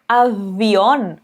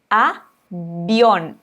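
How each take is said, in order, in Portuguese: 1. O v é um som suave, com sopro, parecido com v. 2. O v é pronunciado como um b firme. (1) "um som parecido com o V do português, ou um som que parece um B que as pessoas estão soprando" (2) "o V vai ter som de B"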